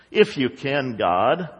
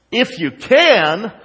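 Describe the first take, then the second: First: Low, subdued, tentative plea; doubtful prayer. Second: Slow, raised, louder incredulous echo; sarcastic. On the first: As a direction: pray it with little conviction. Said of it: "that's how a lot of our prayers are". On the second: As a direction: throw it back as a mocking question. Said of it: "sarcastic remark". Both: Retold or imitated.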